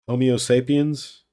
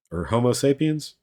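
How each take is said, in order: First: Homo said as "omo", no h at the start, louder; dropped h. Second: Homo said with a clear h at the start; h sounded. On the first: Carrot guesses the word with a dropped h. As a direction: say "Homo" without the h, "omo sapiens". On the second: Carrot corrects himself, sounding the h in Homo. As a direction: say "Homo" with a full h, "hoh-mo sapiens". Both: Shown as a demonstration.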